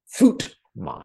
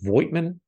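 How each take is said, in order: First: It starts with an F sound and says oo. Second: It starts with a V sound and says oy. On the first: The speaker calls it right. "The V is sharp like an F, and the I is silent. Something like Footman" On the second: The speaker calls it wrong. "I believe pronounced it Voigtman. No"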